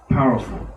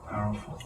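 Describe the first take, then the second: First: Said in the usual way. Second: Whispered. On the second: Shown as a demonstration. Repeats word, then whispers it.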